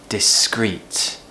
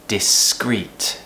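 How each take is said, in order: The two takes are said the same way.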